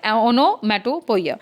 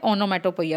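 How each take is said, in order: First: "onomatopoeia" stretched out slowly in separate chunks; slow, chunked repetition. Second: Said in the usual way. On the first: Shown as a demonstration. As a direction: say "onomatopoeia" piece by piece for students. Teacher repeats term in chunks.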